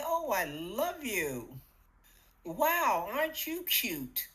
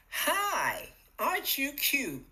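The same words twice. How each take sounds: First: Bright, affectionate coo to the mirror; cheerful self-love. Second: Higher, louder, delighted sing-song greeting; cheerful coo. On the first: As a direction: greet yourself like someone you adore. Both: Shown as a demonstration. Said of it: "Can you hear the difference?".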